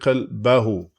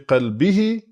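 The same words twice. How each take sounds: First: The vowel before the final syllable is a. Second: The vowel before the final syllable is i. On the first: The noun is in the accusative case. "in the case of منصوب, it's going to be" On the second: The noun is in the genitive case. "in the case of مجرور, it's going to be"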